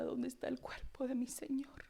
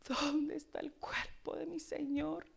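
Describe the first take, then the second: First: A hushed, grieving whisper; whispered lament of Mary; whispered plea. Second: Rising, pleading grief; mild mourning cry; voiced lament. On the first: Acted. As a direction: whisper it like a weeping woman. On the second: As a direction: say it aloud now, searching. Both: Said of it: "Lloraba, hermanos".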